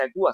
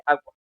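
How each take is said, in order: First: "agua" said as a-u-a, the u as a separate vowel; teacher showing the incorrect "agua"; wrong split pronunciation. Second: "agua" with the u gliding into the a, a-gwa; teacher modelling the right "agua"; correct pronunciation. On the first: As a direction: break "agua" into three vowels as the wrong example. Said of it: "no se dice agua". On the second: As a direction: say "agua" as two smooth syllables. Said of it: "se dice agua". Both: Shown as a demonstration.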